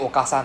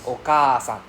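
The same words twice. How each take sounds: First: The 'a' after 'ok' is short. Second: The 'a' after 'ok' is long. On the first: The speaker calls it wrong. "instead of saying okasan" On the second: The speaker calls it right. "it's okasan right double A sound"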